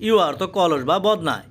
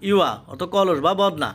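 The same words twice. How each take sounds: The two takes are said the same way.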